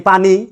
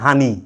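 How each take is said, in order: First: It begins with a p sound, as written. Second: It begins with an h sound, Noakhali style.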